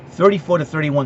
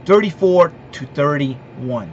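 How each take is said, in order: First: Said in the usual way. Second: "thirty-four to thirty-one" spelled out slowly, each number weighed; slow emphatic. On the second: Shown as a demonstration. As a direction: announce the final score slowly, like a verdict. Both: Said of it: "I'm gonna give you my prediction".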